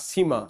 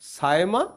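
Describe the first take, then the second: First: The first vowel sounds like 'ee'. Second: The first vowel sounds like 'eye'. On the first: "দুটো নামে উচ্চারণই করা হয়" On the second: "দুটো নামে উচ্চারণই করা হয়"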